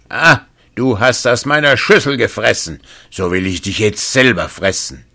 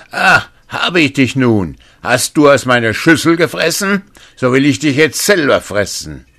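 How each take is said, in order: First: Second giant roaring, higher and louder; giant's shout. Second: Roaring giant, much higher and louder; giant's shout. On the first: The second giant finds the youth and yells in rage, booming shout. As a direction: yell it out like an angry giant. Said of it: "schrie er". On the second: The first giant roars at the youth who ate from his bowl, booming shout. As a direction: bellow it like a hungry giant. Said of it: "da schrie er". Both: Acted.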